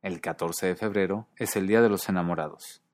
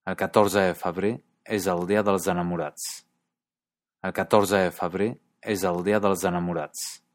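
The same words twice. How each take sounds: First: Said in the usual way. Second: Lightly voiced Catalan sentence; Catalan accent. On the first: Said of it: "su traducción al español". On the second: Shown as a demonstration. Teacher reading a Catalan sentence, light Catalan accent. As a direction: read it like a Catalan speaker, lightly. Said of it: "como en esta frase".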